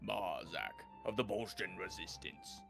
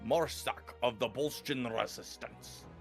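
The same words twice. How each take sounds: First: It is spoken in a Cockney accent. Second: It is spoken in a Scottish accent. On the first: "It just goes Cockney" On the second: "No, I can't go Scottish again"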